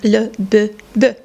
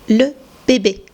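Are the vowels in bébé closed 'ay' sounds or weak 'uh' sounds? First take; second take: weak uh; closed ay. First: The vowels are weak, neutral 'uh' sounds. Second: The vowels are narrow, closed 'ay' sounds. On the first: The speaker calls it wrong. "If you remove this accent, you would need to pronounce the word" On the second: The speaker calls it right. "So you would hear this narrow E sound"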